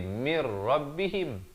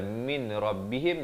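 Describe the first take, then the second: First: The n merges into r without nasal hum. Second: The n is heard before the r.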